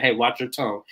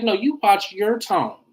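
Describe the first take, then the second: First: Said in the usual way. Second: High, drawn-out mock comeback; retold retort, stretched out high; imitating Todd's retort. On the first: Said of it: "where he said". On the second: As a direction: throw it back, pitched up and slower. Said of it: "Todd was like".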